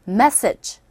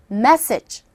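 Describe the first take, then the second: First: The stress is on the first syllable. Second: The stress is on the first syllable.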